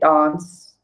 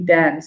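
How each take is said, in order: First: It is said with a South African accent. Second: It is said with an American accent. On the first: "I say dance" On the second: "like you guys say dance"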